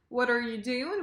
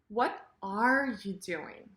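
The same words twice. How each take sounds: First: The words run together with no stress on are. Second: The word are is stressed.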